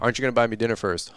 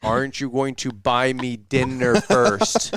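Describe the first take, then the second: First: It is said at a normal speed. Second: It is said very slowly.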